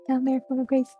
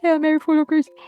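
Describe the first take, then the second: First: It is rushed out quickly in a plain voice. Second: It is said loudly in a stern voice. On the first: A frightened child is praying. "It's just doing it very fast" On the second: A threatening figure is mimicking the child. "in a very stern teacher voice"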